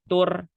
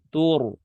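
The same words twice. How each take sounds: First: The r sound is thin and light. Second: The r sound is thick and heavy. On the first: The speaker calls it wrong. "tur itu tipis namanya" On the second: The speaker calls it right.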